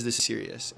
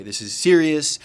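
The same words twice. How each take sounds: First: Said in the usual way. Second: Loud, high, scolding outburst; tirade. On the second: Retold or imitated. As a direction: explode at him over the seriousness. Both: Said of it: "go off again on kind of a bit of a tirade".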